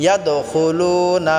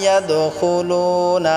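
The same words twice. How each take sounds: The two takes are said the same way.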